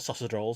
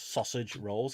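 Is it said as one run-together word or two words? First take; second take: one word; two words. First: It is run together as one word. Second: It is said as two separate words. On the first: The speaker calls it wrong. "what I used to call" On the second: The speaker calls it right. "It's not just one word"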